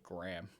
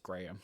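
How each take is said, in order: First: It sounds like the 'graham' in graham cracker. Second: It is pronounced the British way. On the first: The speaker calls it wrong. "like it's graham cracker" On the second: The speaker calls it right. "but it's Graham"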